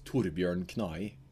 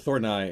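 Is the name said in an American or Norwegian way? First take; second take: Norwegian; American. First: The name is said the Norwegian way. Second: The name is said the American way.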